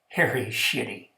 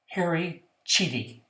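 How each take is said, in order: First: The surname begins with an sh sound. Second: The surname begins with a ch sound. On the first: This is how the kids jokingly said the name. "we were kids. How did we pronounce his name?" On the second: This is the name's proper pronunciation. "I'll tell you how to pronounce it"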